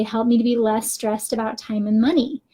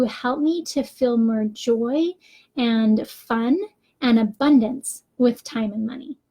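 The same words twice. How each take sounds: First: "stressed" leaned on, heavy and tense. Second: Slow, hopeful "Help me to feel more joy"; positive reframed prayer. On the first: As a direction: dwell on "stressed" so it sounds anxious. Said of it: "I am stressed when I say". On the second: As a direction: say "joy" and "fun" like a gift you expect. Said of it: "and I changed it to". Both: Shown as a demonstration.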